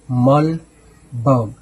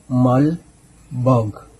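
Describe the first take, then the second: No difference in how they are said.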